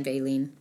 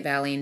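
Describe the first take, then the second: First: "valine" with a long a, as in veil; second pronunciation. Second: "valine" with a short a, as in valley; first pronunciation. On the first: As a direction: say "valine" as VAY-leen. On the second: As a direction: say "valine" as VAL-een. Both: Shown as a demonstration. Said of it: "depending on how you say it".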